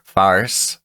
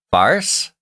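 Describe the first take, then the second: First: Said in the usual way. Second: Farce? said with a high doubtful rise; questioning farce. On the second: Shown as a demonstration. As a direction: ask farce? unsure of the word.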